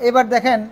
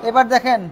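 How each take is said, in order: No difference in how they are said.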